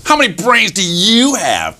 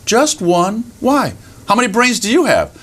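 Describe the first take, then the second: First: High, swooping challenge on YOU; boastful fox. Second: High, curious little rabbit voice; innocent rabbit. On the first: Fox challenges a rabbit about brains, boastful. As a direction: quiz the rabbit like a show-off fox. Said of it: "And the fox says". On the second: Rabbit answers the boasting fox, innocently curious. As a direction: answer simply, then ask back high. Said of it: "And the rabbit looks up". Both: Acted.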